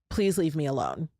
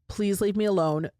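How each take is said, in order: First: It is said in a gentle, nice tone. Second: It is said in a very firm tone.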